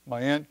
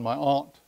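First: Said in the usual way. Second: Aunt said as ahnt, open back vowel; aunt with broad Massachusetts ah. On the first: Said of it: "as he would say". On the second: Retold or imitated. Preacher quoting Brother Sears' way of saying aunt, ahnt. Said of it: "as he, as he would say, he's from Massachusetts".

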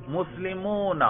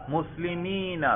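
First: مسلمون with a long drawn "-oona" ending, pitched up; demonstrated case ending. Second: مسلمین with a long "-eena" ending, higher and softer; demonstrated case ending. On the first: Teacher quizzing students on case by sound, demonstrated ending. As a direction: draw out the "oo" in مسلمون. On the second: Teacher testing students by ear, demonstrated ending. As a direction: draw out the "ee" in مسلمین. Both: Shown as a demonstration. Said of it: "میں صرف تلفظ کے ذریعے آپ کو بتلا رہا ہوں".

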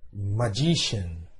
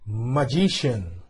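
First: Magician repeated slowly and a bit lower. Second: Magician said slowly, stretched out for learners; slow model word. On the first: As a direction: echo Magician slowly for the class. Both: Shown as a demonstration.

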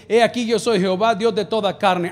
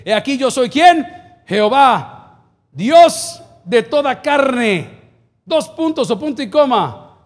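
First: Said in the usual way. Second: Loud, slow, drawn-out verse reading; proclaimed scripture. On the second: Real, not acted. Pastor reading Jeremías to the church, loud proclaimed scripture. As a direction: declaim the verse to the congregation.

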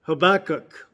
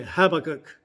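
First: Said in the usual way. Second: "Habakkuk" stressed on the first syllable, HAB-uh-kuk. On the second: Shown as a demonstration.

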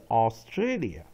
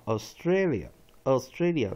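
First: "Australia" opening on a full "aw", aw-STRAY-lia; "Australia" with a strong, unreduced first vowel; common full-vowel pronunciation. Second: "Australia" with the opening AU reduced to a schwa, uh-STRAY-lia; "Australia" with an unstressed, neutral first vowel; weak first vowel. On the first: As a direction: say "Australia" with a clear AW first syllable. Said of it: "一般人喜欢念是Australia". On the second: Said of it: "第一个念法Australia，Australia就把A跟U都念弱母音". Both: Shown as a demonstration.

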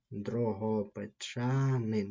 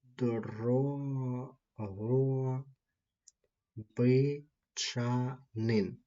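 First: Said in the usual way. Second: Дрогобичанин stretched out very slowly, every syllable clear; teacher spelling it out by sound; slow demo pronunciation. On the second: Shown as a demonstration. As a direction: model Дрогобичанин slowly for the students. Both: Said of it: "це буде ось так звучати".

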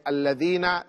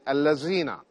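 First: الَّذِينَ with a proper interdental "dh", as in "this"; correct Arabic pronunciation. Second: الَّذِينَ said with "z" in place of "dh": "allazina"; mispronounced Arabic. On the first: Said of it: "instead of saying الَّذِينَ". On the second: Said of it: "This is incorrect". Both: Shown as a demonstration.

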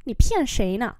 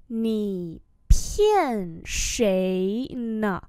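First: Said in the usual way. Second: Very slow, each syllable held; syllable-by-syllable model; slow demonstration. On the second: Shown as a demonstration. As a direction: stretch every tone for learners. Teacher repeats slowly for learners.

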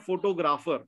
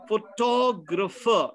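First: Photographer said FO-to-graf-er with even full vowels; wrong photographer. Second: Photographer stressed on TOG, fuh-TOG-ruh-fer, slow; correct photographer. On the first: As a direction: say photographer stressing the first syllable, vowels unreduced. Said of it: "not photographer". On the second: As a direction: hit the second syllable of Photographer. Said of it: "The correct pronunciation is photographer". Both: Shown as a demonstration.

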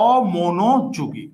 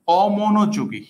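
First: Slow, drawn out. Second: Said in the usual way. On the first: Shown as a demonstration. Teacher spelling out a word for students, very slowly. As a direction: stretch each syllable of অমনোযোগী very slowly.

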